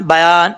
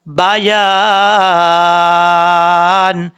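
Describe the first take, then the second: First: بیان said short with the یا swallowed; wrong reading. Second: بیان chanted long with the یا clear; clear ya, recited. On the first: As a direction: demonstrate the sloppy بیان. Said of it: "ایسا نہیں کرنا". (بیان میں یا دبا کر غلط پڑھنا) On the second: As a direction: sing out بیان slowly, ya distinct. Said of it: "اس طریقے سے". (بیان کو لمبا، یا واضح کر کے تلاوت) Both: Shown as a demonstration.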